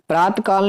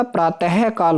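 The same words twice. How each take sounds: First: प्रात काल as praat-kaal, no h; wrong pronunciation. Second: प्रातः काल as praa-teh-kaal; corrected pronunciation. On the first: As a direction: run प्रात काल straight through. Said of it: "नहीं होता". (प्रात काल बिना विसर्ग बोलें) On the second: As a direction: breathe out the visarga in प्रातः काल. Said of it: "विसर्ग लगेंगे". (प्रातः काल में विसर्ग 'ह' साफ़ बोलें) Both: Shown as a demonstration.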